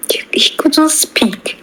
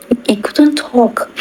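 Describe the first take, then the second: First: Breathy whisper, slowed; half-whispered telling of a silent moment. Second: Said in the usual way. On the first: Retold or imitated. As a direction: hush it as if he has lost his voice. Father unable to speak.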